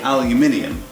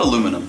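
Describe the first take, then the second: First: The word has five syllables, ending in -ium. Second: The word has four syllables, ending in -um. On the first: The speaker calls it right. "I say aluminium" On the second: The speaker calls it wrong. "not aluminum"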